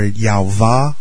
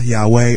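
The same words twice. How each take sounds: First: The middle consonant is a V sound. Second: The middle consonant is a W sound.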